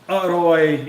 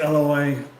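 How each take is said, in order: First: The R sound in the middle is rolled. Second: An L sound replaces the R in the middle. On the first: This is the formal, correct way to speak. "they like to roll their R's" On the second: This is the everyday way most people speak. "they just use the L sound for the rarua sound"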